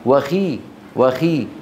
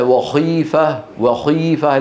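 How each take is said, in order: First: وخي with a lighter خ, clean long i; thin the خ of وخي under its kasra; correct lighter Kha. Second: وخيفة with a too-thick خ; over-heavy Kha error. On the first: Teacher correcting the mistake for students, lighter خ. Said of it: "لا". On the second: Teacher showing students the mistake, exaggerated heavy خ. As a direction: overdo the heaviness of خ in وخيفة. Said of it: "المبالغة في تفخيمها وهي مكسورة". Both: Shown as a demonstration.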